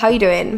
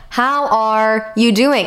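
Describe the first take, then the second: First: It is asked in a casual, offhand way. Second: It is asked in a sincere, caring way.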